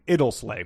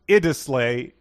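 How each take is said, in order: First: The name is said with two L sounds. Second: The name is said with one L sound. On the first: The speaker calls it wrong. "which we had both been saying" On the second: The speaker calls it right. "only has one L, not two. So it's pronounced Idisley"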